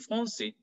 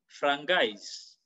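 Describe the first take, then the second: First: The middle consonant sounds like an s. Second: The middle consonant sounds like a hard g. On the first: The speaker calls it right. "the C has cedille. So it goes to français" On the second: The speaker calls it wrong. "we don't say frangais"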